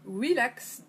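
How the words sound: The word is said with English pronunciation. The speaker calls it right.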